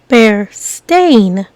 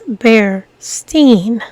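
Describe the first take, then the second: First: The name ends with a 'stain' sound. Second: The name ends with a 'steen' sound. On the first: The speaker calls it right. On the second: The speaker calls it wrong. "mispronounce and misread ... as"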